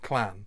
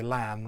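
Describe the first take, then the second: First: The word begins with a K sound. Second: The word begins with a plain L sound. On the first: The speaker calls it wrong. "a lot of people will try to pronounce that clan" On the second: The speaker calls it right. "if you say lan rather than clan"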